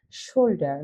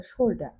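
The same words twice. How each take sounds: First: Said in the usual way. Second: "শোল্ডার" British-style, ending in an open "-দা" with no r; British pronunciation. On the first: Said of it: "কিন্তু ব্রিটিশরা উচ্চারণ করে". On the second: Shown as a demonstration. Teacher showing learners how the British say "শোল্ডার", r left silent. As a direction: drop the final r of "শোল্ডার". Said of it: "ব্রিটিশরা উচ্চারণ করে".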